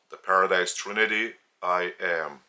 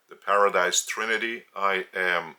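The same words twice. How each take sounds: The two takes are said the same way.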